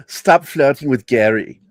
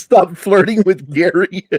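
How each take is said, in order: First: Light Austrian accent imitation; a hint of Austrian accent on the girlfriend's line. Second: Imitating girlfriend. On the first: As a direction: mimic her Austrian accent, understated. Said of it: "her accent". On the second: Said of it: "She says".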